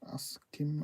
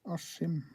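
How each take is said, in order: First: The middle consonants are pronounced as sk. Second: The middle consonant is pronounced as sh. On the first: This follows the spelling. "even though it's written Askim" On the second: This is how people actually say it. "we say Ashim"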